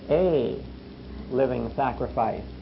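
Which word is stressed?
a. The stress is on the word a. Many bodies make one single sacrifice. "And yet there's a third word behind that"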